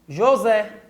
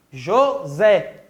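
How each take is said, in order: First: Said in the usual way. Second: "José" split into two separate syllables. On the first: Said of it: "vamos pegar a palavrinha José". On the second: Shown as a demonstration. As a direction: break "José" in two, jo then zé, lower pitched. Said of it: "a separação silábica". ("José" separado em duas sílabas, pausadamente)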